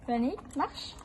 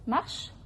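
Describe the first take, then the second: First: Rising walk-on command; horse command. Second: Firm command to a horse. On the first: Real, not acted. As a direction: urge the horse forward. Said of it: "Non, encore". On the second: Shown as a demonstration. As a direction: tell the horse to walk on. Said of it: "je lui demande d'avancer".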